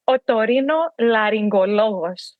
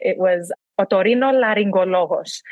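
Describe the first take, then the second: First: Otorino laryngologos given a proper Greek accent on request; Greek pronunciation. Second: Otorino laryngologos said the Greek way, rolled and round; Greek pronunciation. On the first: Shown as a demonstration. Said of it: "I need you to say it one more time". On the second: Retold or imitated. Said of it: "I would just love when he would say it".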